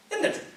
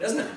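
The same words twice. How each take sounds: First: Much higher, insistent isn't it; high, coaxing repeat of isn't it; pushy repeat. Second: Said in the usual way. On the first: Real, not acted. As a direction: pitch the second isn't it way up to press the crowd. Repeated tag question to crowd.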